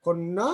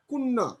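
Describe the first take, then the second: First: Said in the usual way. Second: কন্যা said as কুন্না with rounded first vowel and doubled ন; কন্যা pronounced "কোন্না"; initial অ as ও. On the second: Shown as a demonstration. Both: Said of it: "আদ্য অ এর উচ্চারণ ও এর মতো".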